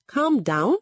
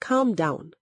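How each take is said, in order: First: High, indignant rising echo; narrator's mildly shouted retort; shouted question. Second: Said in the usual way. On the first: A narrator's reading. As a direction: fling the words back as an outraged question. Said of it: "Egodi shouted".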